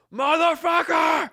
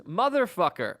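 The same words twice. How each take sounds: First: Full-throated high scream, drawn out; retold scream. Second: Toned-down mock yell; half-hearted imitation of a scream; retold scream. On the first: Imitating a passenger cutting off the delay announcement, screaming. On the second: Retelling a passenger's outburst to a co-host, mild mock scream.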